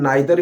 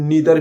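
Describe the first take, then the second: First: The first vowel sounds like 'eye'. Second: The first vowel sounds like 'ee'. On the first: "इसको हम नाइदर भी बोल सकते हैं" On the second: "नीदर भी बोल सकते हैं"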